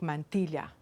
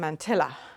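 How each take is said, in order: First: The word is said the Spanish way. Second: The word is said the Irish-English way. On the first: The speaker calls it right. "the real pronunciation is something more like mantilla" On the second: The speaker calls it wrong. "when we were little in Ireland, it was a mantilla"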